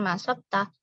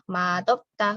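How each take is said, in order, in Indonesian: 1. Konsonan setelah vokal pertama terdengar seperti s. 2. Konsonan setelah vokal pertama terdengar seperti d. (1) "bukan masopta" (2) "Dia dibaca seperti huruf D di sini"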